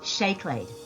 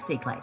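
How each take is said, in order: First: The word begins with an sh sound. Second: The word begins with a plain s sound. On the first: The speaker calls it right. "That is actually pronounced Shayclade" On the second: The speaker calls it wrong. "or it looks like Seaclade"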